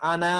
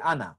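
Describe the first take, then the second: First: The final vowel is drawn out long. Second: The final vowel is cut short. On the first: The speaker calls it wrong. "আনা আমরা বলি না" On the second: The speaker calls it right. "বলি আনা"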